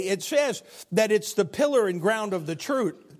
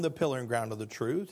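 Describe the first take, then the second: First: Said in the usual way. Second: "the pillar and ground of the truth" said lower and softer, leaning on "truth"; hushed, deliberate repetition of "the pillar and ground of the truth"; soft emphatic repeat. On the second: Shown as a demonstration. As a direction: drop the voice and weigh each word of "the pillar and ground of the truth".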